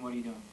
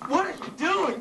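First: It is said like a preacher. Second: It is said like a wild woman.

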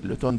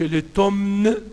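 First: The final M sound is silent. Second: The final M sound is pronounced. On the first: The speaker calls it right. "ما تنطقش الام" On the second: The speaker calls it wrong. "ما قولش لوتومن الأم"

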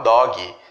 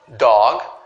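First: The word ends with an extra ee vowel. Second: The word ends sharply on the final consonant. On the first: The speaker calls it wrong. "temos a tendência de colocar um i aqui no final" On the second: The speaker calls it right. "a pronúncia ela vai só até aqui"

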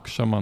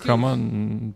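First: The word begins with a ksh cluster. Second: The word begins with a plain k sound. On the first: The speaker calls it right. "Но кшама нужно говорить" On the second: The speaker calls it wrong. "Кама — это неправильно"

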